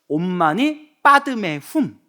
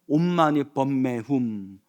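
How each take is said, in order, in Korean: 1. 가운데 단어는 padme처럼 들립니다. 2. 가운데 단어는 bemme처럼 들립니다. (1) "인도 산스크리트어로는" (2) "티벳 발음으로는"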